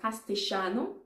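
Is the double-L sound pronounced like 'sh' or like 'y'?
sh sound. The double-L is said like an 'sh' sound. "in Argentina, they actually speak something that's called castellano"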